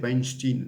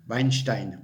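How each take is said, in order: First: The name is said with an English pronunciation. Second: The name is said without an English pronunciation. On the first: The speaker calls it wrong. "prononciation anglaise, non, non" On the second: The speaker calls it right. "voilà"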